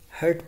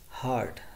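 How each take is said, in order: First: The word sounds like 'hurt'. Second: The word sounds like 'heart'. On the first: The speaker calls it wrong. "bahut sare students heart ko hurt padte hain" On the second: The speaker calls it right. "so it's heart"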